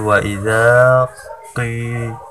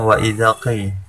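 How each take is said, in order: First: The vowel in 'dza' is held long. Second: The vowel in 'dza' is short. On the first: The speaker calls it right. "za-nya dipanjangkan sebanyak dua harokat" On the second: The speaker calls it wrong. "tidak dibaca dengan wa idza qi"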